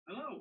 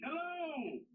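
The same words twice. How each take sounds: First: It is said more quietly. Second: It is said loudly.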